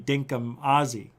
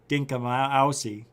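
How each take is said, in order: First: The second word is said as 'Aussie'. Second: The second word is said as 'Ousie'. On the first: The speaker calls it right. "when it should be Dinkum Aussie" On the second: The speaker calls it wrong. "I don't want to be here every single day saying Dinkum Ousie"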